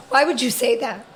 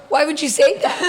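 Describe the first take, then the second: First: Said in the usual way. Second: Higher, amused mock disbelief; retold exasperated husband; incredulous repeat. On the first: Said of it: "Ryan looks at me and says". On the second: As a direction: repeat the question higher, close to laughing. Husband's retold question, repeated for laughs.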